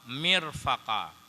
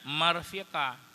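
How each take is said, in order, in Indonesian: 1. Vokal pertama adalah i, yang kedua a. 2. Vokal pertama adalah a, yang kedua i. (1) "dibaca dengan kasrah mim patah qaf" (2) "dengan sebaliknya"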